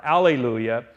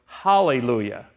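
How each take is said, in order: First: "alleluia" starting on the bare vowel, pitched low; alleluia without H. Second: "hallelujah" with an H sound before "ah", low and falling; Hebrew pronunciation. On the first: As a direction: say "alleluia" with no H at the front. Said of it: "that give them an H sound". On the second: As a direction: pronounce "hallelujah" as "HAH-lay-loo-yah". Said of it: "it's really pronounced in the Hebrew". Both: Shown as a demonstration.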